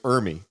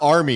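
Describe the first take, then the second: First: The name begins with an 'er' sound. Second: The name begins with an 'ar' sound. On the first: The speaker calls it right. "it's Ermy" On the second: The speaker calls it wrong. "It's not Army"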